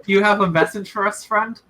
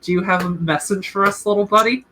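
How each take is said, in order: First: Less condescending. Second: Cutesy question to a little bird, lilting up at the end; cute coaxing. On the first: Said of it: "Little buddy's too condescending. It's like". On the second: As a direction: sweet-talk a tiny animal. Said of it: "sort of cutely, you know, talk to a swallow". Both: Acted.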